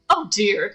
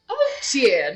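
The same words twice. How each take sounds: First: It is said in an ordinary, unaffected accent. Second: It is said in an exaggerated posh British accent. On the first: The speaker calls it wrong. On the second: The speaker calls it right.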